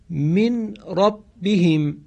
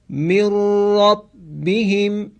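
First: The n is heard before the r. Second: The n merges into a doubled r.

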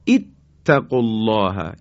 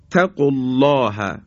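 First: The first word begins with an 'i' vowel. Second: The first word begins directly with the consonant. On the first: Reading starts fresh at this word. "باید بخونیم اتق الله، یعنی با کسره بخونیم" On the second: The phrase continues from the word before. "یا قالت تق الله"

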